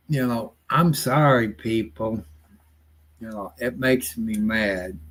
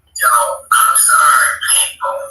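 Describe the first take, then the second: First: Said in the usual way. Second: Loud, exasperated shout of sorry; frustrated shout. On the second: Real, not acted. Shouting a fed-up apology to his viewers. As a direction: blurt the apology out at full voice.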